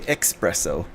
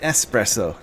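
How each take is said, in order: First: The word starts with an 'ex' sound. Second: The word starts with an 'es' sound. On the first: The speaker calls it wrong. "pronouncing wrong" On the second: The speaker calls it right. "it's espresso"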